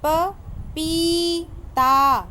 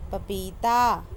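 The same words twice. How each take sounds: First: पपीता very slow and loud, ee held; teacher modelling पपीता; drawn-out syllables. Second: Said in the usual way. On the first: Shown as a demonstration. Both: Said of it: "बोल बोल कर पढ़ना है".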